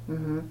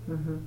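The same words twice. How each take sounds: The two takes are said the same way.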